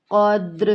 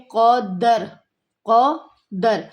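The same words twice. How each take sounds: First: قدر with a silent دال and a qalqala bounce; correct reading. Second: قدر with a zabar on the دال; the common mistake, قدر with the دال voweled; wrong reading. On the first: Teacher models the correct قدر for students. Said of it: "دال خود سے ہی ساکن ہے". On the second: Teacher imitates students' wrong قدر. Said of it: "دال کے اوپر ہم لوگ زبر لگا کے". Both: Shown as a demonstration.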